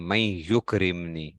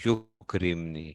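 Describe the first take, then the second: First: Slow, clear "मैं युकरिमनी" with yukrimni ending in -ni; careful model reading. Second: "युकरिमनी" stretched out very slowly, syllable by syllable; drawn-out answer. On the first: Teacher modelling the correct form for students, slow and clear. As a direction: read "मैं युकरिमनी" slowly, stressing मैं, ending firmly on -ni. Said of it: "इसको युकरिमू नहीं पढ़ना". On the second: Teacher giving students the right form, drawn out slowly. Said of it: "युकरिमू की बजाय क्या आएगा?". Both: Shown as a demonstration.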